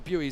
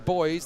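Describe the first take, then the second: First: The word is said the American way. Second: The word is said the speaker's own, non-American way. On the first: "the Americans say buoys" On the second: "I say boys"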